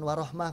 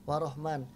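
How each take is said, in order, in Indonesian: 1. Kata itu diakhiri bunyi h. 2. Kata itu diakhiri bunyi n. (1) "Bukan, warohmah" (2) "dia bilang warahman"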